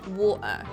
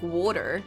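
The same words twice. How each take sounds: First: The middle T is a glottal stop. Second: The middle T sounds like a D. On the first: "the glottal is you have to take a pause in the middle of the word" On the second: "I could say D instead of a T"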